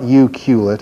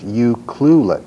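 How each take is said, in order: First: The name is said without the 'cl' cluster. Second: The name is said with the 'cl' cluster. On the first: The speaker calls it wrong. "It's not you culet" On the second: The speaker calls it right. "it's you clulet"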